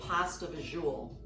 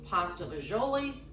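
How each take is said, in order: First: The second word is short, ending in 'zool'. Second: The second word is longer, ending in 'lee'. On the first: This is the speaker's own way of saying it. "That's the way I say it anyway" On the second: Other people say it this way. "I think some people say"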